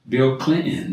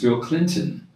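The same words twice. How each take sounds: First: The T in Clinton is dropped. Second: The T in Clinton is clearly pronounced. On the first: The speaker calls it wrong. "people drop the T's all the time. It's like, you know" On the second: The speaker calls it right. "No, it's not Bill Clinton, it's"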